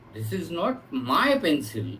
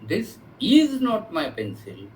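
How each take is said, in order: First: The word 'my' carries the emphasis. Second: The word 'is' carries the emphasis. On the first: The pencil may belong to someone else. "किसी अल- दूसरे की हो सकती है" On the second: It used to be the speaker's pencil but no longer is. "previously it was mine but I have given it to somebody"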